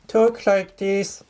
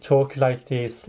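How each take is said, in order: First: Much higher and slower, a put-on high voice; raised pitch. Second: Said in the usual way. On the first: Shown as a demonstration. Tutor demonstrating to test-takers the raised-pitch voice, high and slow. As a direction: lift the voice way up and stretch it out. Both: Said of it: "raise the pitch of your voice".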